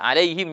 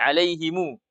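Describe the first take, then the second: First: The word ends on the consonant m. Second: The word ends with an added vowel u.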